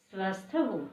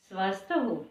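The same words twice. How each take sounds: The two takes are said the same way.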